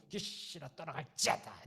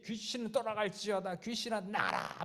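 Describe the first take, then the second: First: Squeezed, forced exorcism command; mock all-out straining, held-down volume; through gritted teeth. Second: High, strained imitation of shouting; hammed-up yell without full volume; mock exorcism yelling. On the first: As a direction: push the words out through clenched teeth. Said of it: "이빨이 꽉 물고". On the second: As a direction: mimic disciples straining to cast out a demon. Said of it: "막 소리 지르면서".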